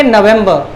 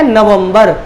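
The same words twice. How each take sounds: First: नवंबर said as "no-vem-buh"; English pronunciation. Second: नवंबर said as "na-vum-bar"; Hindi pronunciation. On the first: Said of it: "English में कैसे बोलेंगे". (नवंबर का अंग्रेज़ी उच्चारण, "नवेंबर") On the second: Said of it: "Hindi में बोलते हैं". (नवंबर का हिंदी उच्चारण, "न-वम्-बर") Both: Shown as a demonstration.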